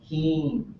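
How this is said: The vowel is held long and level. "so it's a long vowel. Um, we really make them long"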